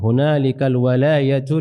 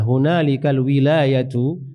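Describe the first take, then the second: First: The first vowel of the word is 'a'. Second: The first vowel of the word is 'i'. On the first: This is the most common reading. "Wawunya itu fathah" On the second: This is another accepted reading with the same meaning. "itu qiraah lain"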